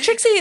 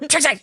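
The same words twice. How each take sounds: First: The name is said in a normal tone. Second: The name is said in a scolding tone.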